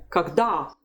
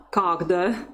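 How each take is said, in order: First: Когда stressed on the last syllable, "kag-DA"; когда with weak first syllable and strong falling "DA"; correct stress. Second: Когда stressed on the first syllable, "KAG-da"; wrong stress. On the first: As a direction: put the strength on the final "a" of когда. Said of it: "strength of the voice is still on the stressed syllable". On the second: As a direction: mistaken когда with a weak, rising last syllable. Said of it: "so it's never когда". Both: Shown as a demonstration.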